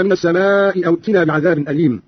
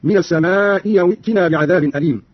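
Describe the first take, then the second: First: Said in the usual way. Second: "السماء أو" as as-samaa'i yaw; hamza turned ya. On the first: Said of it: "بإبدال الهمزة الثانية ياء". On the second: Shown as a demonstration. Teacher showing Qalun's reading, "أو" said yaw. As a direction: glide with a y into "أو" instead of a glottal stop. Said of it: "بإبدال الهمزة الثانية ياء هكذا".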